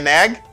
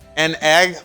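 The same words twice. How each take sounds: First: The words are said quickly and run together. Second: The words are said slowly and separately.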